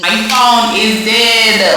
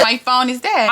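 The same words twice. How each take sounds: First: Loud, hugely drawn-out words; booming slow-motion proclamation; dramatic announcement. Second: Said in the usual way. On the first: Acted. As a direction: stretch every word out loudly for drama. Dramatic announcement, then repeated normally.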